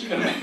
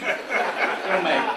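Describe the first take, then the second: First: Said in the usual way. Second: Slower with a lift on gonna, laughing; slow mock-sermon promise with a chuckle; preacher emphasis. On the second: Shown as a demonstration. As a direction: preach it like a Baptist blessing. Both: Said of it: "Good Baptist".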